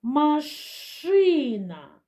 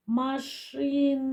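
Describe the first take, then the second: First: Машина with a long, loud, drawn-out ШИ; ма-ШИИ-на, very slow, higher, falling off after the stressed syllable; stress on second syllable. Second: Slow word, lingering on the final sound; машина said slowly, sound by sound, ending on a long А; drawn-out last sound. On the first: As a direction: hit and stretch the ШИ in Машина. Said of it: "Поставимо наголос". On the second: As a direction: stretch машина out, holding the last А. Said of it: "І останній звук". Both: Shown as a demonstration.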